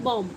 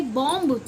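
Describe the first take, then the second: First: बॉम्ब ending on m, b silent; correct silent b. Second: बॉम्ब with the final b sounded; mispronounced bomb. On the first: Teacher giving students the correct reading, b dropped. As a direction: close बॉम्ब on the m. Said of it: "इसको पढ़ते हैं बॉम्ब". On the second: Teacher showing students the wrong reading, b pronounced. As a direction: say बॉम्ब wrongly, voicing the last b. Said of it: "बॉम्ब नहीं पढ़ते". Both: Shown as a demonstration.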